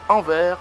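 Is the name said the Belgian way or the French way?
French. The name is pronounced the French way. "et en France, Anvers"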